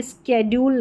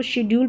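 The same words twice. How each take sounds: First: स्केड्यूल said with sk, sked-yool; स्केड्यूल with a hard sk start; स्केड्यूल as the mistaken sk sound; wrong pronunciation. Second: शेड्यूल said with sh, shed-yool; शेड्यूल as the correct sh sound; right pronunciation. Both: Shown as a demonstration. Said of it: "स्केड्यूल नहीं".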